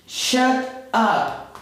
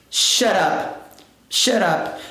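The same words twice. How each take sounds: First: "shut up" slowly, two words with a gap; careful, unlinked "shut up"; separate words. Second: "shut up" run together as "sharap"; quick one-word "shut up", T flapped; fast linked pronunciation. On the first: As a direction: say "shut" and "up" apart, no linking. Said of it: "que na pronúncia rápida vai ficar". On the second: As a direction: link "shut up" with a tapped R for the T. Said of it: "na pronúncia rápida vai ficar". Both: Shown as a demonstration.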